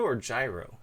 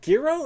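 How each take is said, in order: First: "gyro" with a soft g, JY-roh; soft-g pronunciation. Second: "gyro" with a hard g, GHEE-roh; hard-g pronunciation. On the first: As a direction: say "gyro" starting like "giant". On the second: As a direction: say "gyro" starting like "gear". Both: Shown as a demonstration. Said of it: "Is it gyro or gyro?".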